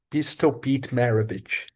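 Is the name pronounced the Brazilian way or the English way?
English. The name is said with original English sounds.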